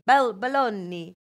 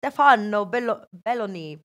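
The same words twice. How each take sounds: First: Belloni slow, stressing the middle syllable; restart, then stretch the LO in Belloni; slow, careful Belloni with stress on LO; corrected pronunciation. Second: Stefano Belloni with the surname stressed up front; half-right pronunciation. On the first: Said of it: "he's called Stefano Belloni". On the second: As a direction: say Belloni as BEL-loni, after a loud Stefano. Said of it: "I was half right". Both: Shown as a demonstration.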